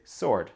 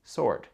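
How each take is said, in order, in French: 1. Le w est muet après le s. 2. Le w est muet après le s.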